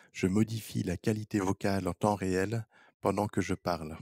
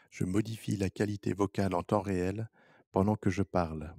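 Both takes have the same delivery.

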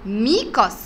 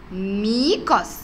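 First: Said in the usual way. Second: Slow drawn-out word. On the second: Shown as a demonstration. Teacher stretches ميكس slowly for the children. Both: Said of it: "الشكل اللي بعده".

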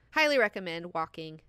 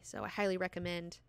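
First: Highly said louder, pressed harder; highly recommend, with a firmer push; stress on highly. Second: Said in the usual way. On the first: Shown as a demonstration. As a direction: lean on the word highly.

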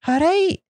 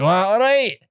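First: High, lilting Edinburgh accent. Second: High, aggressive Glaswegian greeting; Glasgow accent. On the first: Host demonstrating the other Scottish accent, high Edinburgh lilt. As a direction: pitch it up as an Edinburgh greeting, rising. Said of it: "That's from, um, Edinburgh". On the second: Host contrasting Glasgow with Edinburgh, aggressive Glaswegian accent. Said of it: "And then Glasgow was like". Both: Shown as a demonstration.

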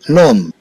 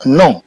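First: نوم with the lips shut on final m; m pronounced as m. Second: نو with no m sounded at the end; m read as n. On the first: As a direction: say نوم closing on a sounded m. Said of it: "وممكن أنها تنطق". (نطق نوم بميم ظاهرة) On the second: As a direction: say نو as French "nom", nasal vowel. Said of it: "ممكن أنها تنطق كآن". (نطق نو دون ميم ظاهرة) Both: Shown as a demonstration.

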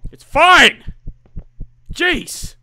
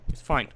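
First: Yelled in frustration; sudden shout. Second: Said in the usual way. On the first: Real, not acted. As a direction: explode on the last word. Sudden outburst after resigned line.

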